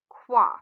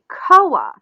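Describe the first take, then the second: First: The name is said as one syllable, Kwa. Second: The name is said as two syllables, Ko-a. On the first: The speaker calls it right. "the name is actually pronounced Kwa" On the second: The speaker calls it wrong. "You might want to pronounce this name like Koa"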